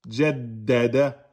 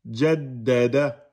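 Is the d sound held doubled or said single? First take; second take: doubled; doubled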